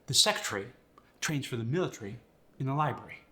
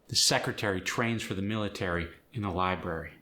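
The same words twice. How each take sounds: First: It is said in a British accent. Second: It is said in an American accent. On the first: "If you say that sentence with a British accent, you're going to lose the A" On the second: "That's American"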